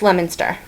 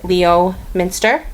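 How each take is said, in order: First: It is said in the shortened local way. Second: Every syllable is sounded out as spelled. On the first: This is how locals say it. The speaker calls it right. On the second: This is how an outsider would read it. The speaker calls it wrong. "looking at it, you would probably pronounce it"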